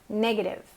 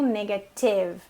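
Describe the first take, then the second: First: The stress is on the first syllable. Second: The stress is on a later syllable. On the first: The speaker calls it right. "No início" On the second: The speaker calls it wrong. "não no negative"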